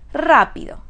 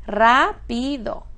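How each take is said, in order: First: Said in the usual way. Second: "rápido" slowly split as rá, pi, do; syllable by syllable. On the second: Shown as a demonstration. Teacher asking which syllable is stressed, "rápido" syllable by syllable. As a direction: sound out "rápido" in three slow pieces. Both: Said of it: "¿Cuál es esta sílaba?".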